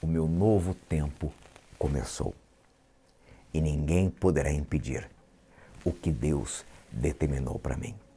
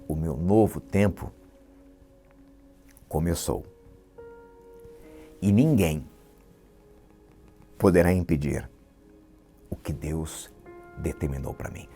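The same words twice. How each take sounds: First: It is said at a normal speed. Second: It is said very slowly.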